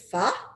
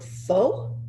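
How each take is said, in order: First: The vowel sounds like a short 'ah'. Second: The vowel sounds like 'oh', as in 'foe'. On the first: The speaker calls it right. "but they pronounce it fa" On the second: The speaker calls it wrong. "It looks like the word pho"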